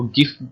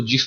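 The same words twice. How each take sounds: First: "गिफ" with a hard g; hard-g pronunciation. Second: "जिफ" with a j sound; soft-g pronunciation. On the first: Teacher showing students one accepted way, "गिफ" with hard g. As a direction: say "गिफ" opening on a g as in go. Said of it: "इसकी pronunciation जो है वो गिफ या जिफ है". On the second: Teacher showing students the other accepted way, "जिफ" with soft g. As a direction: say "जिफ" opening like jam. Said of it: "या आप इसको जिफ pronunciate कर सकते हैं". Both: Shown as a demonstration.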